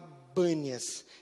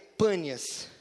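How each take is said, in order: First: The name begins with a B sound. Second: The name begins with a P sound. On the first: This is how Arabic speakers say it. "no árabe não tem o P, então ele fala Bânias" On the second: This is the actual name of the city. "Então o nome da cidade é Pânias"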